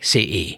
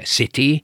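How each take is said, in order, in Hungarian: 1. A középső t helyett hangszalagzár van. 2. A középső t tiszta t-ként ejtődik. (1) "ahol T van a helyesírásban, ott helyette hangszalagzár van" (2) "a klasszikus vagy rádiós kiejtése"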